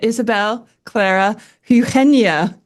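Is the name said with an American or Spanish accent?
Spanish. The name is said with a Spanish accent.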